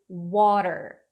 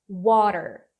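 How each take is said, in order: Both takes have the same delivery.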